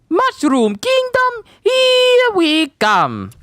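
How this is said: It has a thick, exaggerated Italian accent. "it's not super thick like we're used to"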